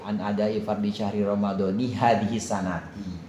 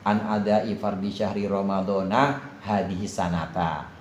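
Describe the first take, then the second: First: Ramadan and sanat end with an 'i' vowel. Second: Ramadan and sanat end with an 'a' vowel. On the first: Ramadan is linked to the following phrase as its possessor. "Itu dua bacaannya, dan dua-duanya benar" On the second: Ramadan is not linked to the following phrase, which marks time. "tidak dimudhafkan, maka jadi ghair munsharif"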